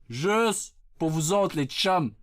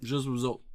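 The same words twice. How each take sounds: First: Drawn-out, deliberate promise; slow emphasis. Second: Said in the usual way. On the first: Acted. Streamer to his chums, slow deliberate emphasis. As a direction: stretch out the first word.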